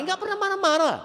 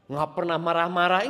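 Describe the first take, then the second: First: "marah-marah" said much higher and louder; emphatic self-correction on "marah-marah"; corrected emphasis. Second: Said in the usual way. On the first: Shown as a demonstration. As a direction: correct himself, pushing "marah-marah" up high and loud.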